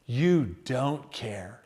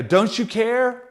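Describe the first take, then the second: First: Very soft, slow, low "You don't care."; bitter accusation. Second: Slow hurt question "Don't you care?"; questioning plea. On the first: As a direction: murmur it as a hurt accusation. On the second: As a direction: ask it as a wounded question. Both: Shown as a demonstration. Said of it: "Just a little bit of those words switch in there".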